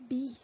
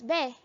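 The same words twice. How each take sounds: First: "B" said as "bee"; correct pronunciation. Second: "be" said as "beh"; wrong pronunciation. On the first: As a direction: model "B" with a long ee vowel. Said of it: "We pronounce it as". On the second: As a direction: read "be" with a short eh vowel. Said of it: "That's not how we pronounce it". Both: Shown as a demonstration.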